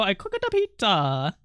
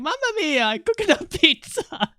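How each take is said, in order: First: Said in the usual way. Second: High, hammed-up Italian accent; mock Italian accent. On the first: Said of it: "they go". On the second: Tweet guy trolling angry replies, hammed-up Italian accent. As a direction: play the cartoon Italian troll. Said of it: "the guy in the tweet kept replying".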